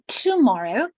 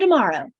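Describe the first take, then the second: First: The first sound is a clear t sound. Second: The first sound is a quick d-like sound. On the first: "They don't say tomorrow" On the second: "their first sound of tomorrow becomes d"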